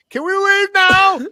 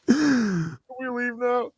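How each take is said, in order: First: It is said loudly. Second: It is said quietly.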